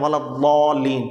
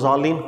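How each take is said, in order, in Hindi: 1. मुख्य व्यंजन एक भारी d जैसी ध्वनि है। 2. मुख्य व्यंजन एक z जैसी ध्वनि है। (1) "वो पढ़ते प्रॉपर तलफ़ुज़ के साथ हैं" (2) "बच्चों को ज़रा ज़ा आसान होता है"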